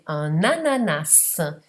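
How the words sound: The final S of ananas is pronounced. This is how it is said in France. "In Francia si pronuncia la S finale"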